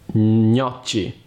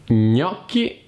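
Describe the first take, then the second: First: The middle consonant is a soft ch sound. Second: The middle consonant is a hard k sound. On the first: The speaker calls it wrong. "e non" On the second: The speaker calls it right. "Il suono CH in italiano è molto simile alla K"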